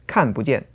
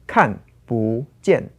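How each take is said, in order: First: The syllable 不 is light and toneless, said quickly. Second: The syllable 不 keeps a full tone.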